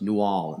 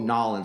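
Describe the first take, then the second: First: The name is said fully, with the new. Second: The name is squashed into two syllables. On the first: The speaker calls it right. "no, it's New Orleans" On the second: The speaker calls it wrong. "when people go Nolans, I'm like, no"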